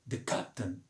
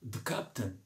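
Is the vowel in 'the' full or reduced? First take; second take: reduced; reduced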